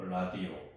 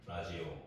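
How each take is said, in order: First: The middle consonant is a plain 'd' sound. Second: The middle consonant is a 'j' sound. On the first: "라,디,오가 되죠" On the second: "디귿이 이제 지읒처럼 발음이 돼가지고"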